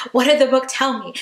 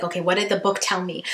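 First: "What did the book tell me?" again, higher and louder with "did" pushed; urgent repeat. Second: Said in the usual way. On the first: Retold or imitated. On black ice, urging herself, pressing on "did". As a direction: press yourself harder on "did". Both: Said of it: "I was like".

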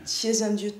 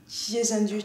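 No difference in how they are said.

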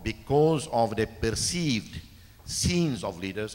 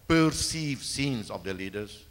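First: Said in the usual way. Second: Perceived given weight, slow and deliberate; stress on perceived. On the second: Shown as a demonstration. President to the audience, slowly stressing perceived. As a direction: lean on the word perceived, slowly. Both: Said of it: "and again I emphasize the word".

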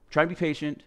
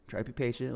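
First: Said in the usual way. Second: "try to be patient" said much softer, to himself; quiet self-reminder. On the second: Shown as a demonstration. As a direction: drop to a soft murmur on "try to be patient".

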